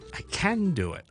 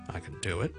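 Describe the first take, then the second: First: The word can is stressed and full. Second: The word can is unstressed and reduced. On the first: "强调咧就系" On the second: "唔强调嘅CAN"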